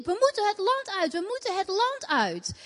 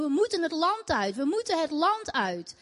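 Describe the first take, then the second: First: Higher pitched urgent mock shout; retelling her own frantic cry to a friend; retold shouting. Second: Mild mock scream, barely raised; urgent chant of the demons, held back; retold demons screaming. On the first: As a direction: cry it out, pitch rising as if pleading. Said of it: "En ik roep en ik riep". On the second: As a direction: demons crying out to leave, lightly voiced. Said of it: "Ik hoorde ze schreeuwen".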